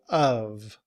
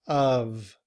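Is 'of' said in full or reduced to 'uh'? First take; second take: full; full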